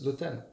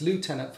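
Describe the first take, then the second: First: It is said with a French pronunciation. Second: It is said with an American pronunciation. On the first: "If you're French, it's lieutenant or whatever" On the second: "in America, it's lieutenant"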